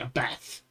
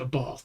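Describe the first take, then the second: First: Bath is said in a Welsh accent. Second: Bath is said in a standard accent. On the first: This is how a Welsh speaker says it. "she's Welsh actually... she calls it" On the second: This is how most people say it. "Everybody else on the planet calls it"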